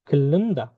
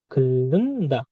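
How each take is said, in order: First: Said in the usual way. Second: Slow model. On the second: Shown as a demonstration. Teacher stretches the word for learners.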